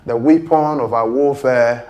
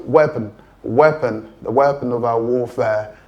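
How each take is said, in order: First: Weapon with long ee, WEE-pon; mock common mistake; wrong vowel. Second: Weapon with short e, WEP-un; teacher model WEP-un; correct pronunciation. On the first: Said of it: "Many people pronounce this word as weapon". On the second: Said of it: "No, the word is weapon". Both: Shown as a demonstration.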